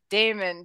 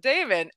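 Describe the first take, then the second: First: The name is said with a disgusted tone. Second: The name is said with an admiring tone. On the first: The speaker dislikes the character. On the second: The speaker is impressed by the character.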